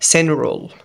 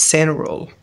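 First: The t sound after n is dropped. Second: The same.

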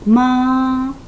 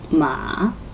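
First: The pitch stays high and level. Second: The pitch dips down then rises. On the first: "일성 마" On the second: "삼성 마"

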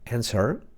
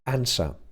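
First: American accent, with the final r sounded. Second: British accent, with the final r dropped. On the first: "Tak mniej więcej wymawia to Amerykanin" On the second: "Brytyjczyk często powie to jako answer"

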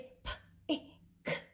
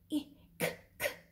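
First: The final k sound is said once. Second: The final k sound is said twice. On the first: The speaker calls it right. "No, it's p, I, k. Say it only once" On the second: The speaker calls it wrong. "It will not be"

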